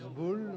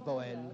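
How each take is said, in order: First: The name is said in its native pronunciation. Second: The name is said with French-speaker pronunciation. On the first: This is how the bearer and locals say it. "on le prononce boule" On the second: This is how French speakers from Brussels onward say it. "les gens d'expression française disent Boel"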